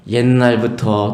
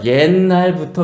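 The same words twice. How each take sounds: First: Drawn out slowly, 옛날부터 stretched as a calm lead-in; slow roundabout opening. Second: Said in the usual way. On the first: Shown as a demonstration. The wise woman opening to Joab slowly with 옛날부터. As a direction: ease into it the long way round. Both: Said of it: "쫙 돌려서 얘기하는 거예요".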